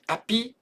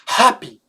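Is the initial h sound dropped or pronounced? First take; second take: dropped; pronounced. First: The initial h sound is dropped. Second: The initial h sound is clearly pronounced. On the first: The speaker calls it wrong. "C'est pas happy" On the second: The speaker calls it right. "c'est happy, Il faut l'entendre"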